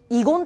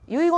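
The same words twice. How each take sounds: First: It is said with the legal reading. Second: It is said with the everyday reading. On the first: The speaker has studied law. The speaker calls it right. "我々遺言って言うんです" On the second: The speaker has no legal training. The speaker calls it wrong. "遺言って言わないんで"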